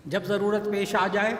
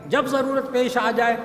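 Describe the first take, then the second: First: Said in the usual way. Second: "جب ضرورت پیش آ جائے" said higher and louder, punching "جب"; emphatic repeat. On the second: Shown as a demonstration. Preacher urging the congregation to remember, emphatic. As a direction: repeat it with force, hitting "جب".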